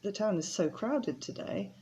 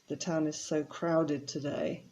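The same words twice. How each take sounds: First: The voice sounds pleased and upbeat. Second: The voice sounds displeased and weary. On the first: The crowds are a good thing. "crowded for you is a good thing" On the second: The crowds are a bad thing. "a more of a negative meaning"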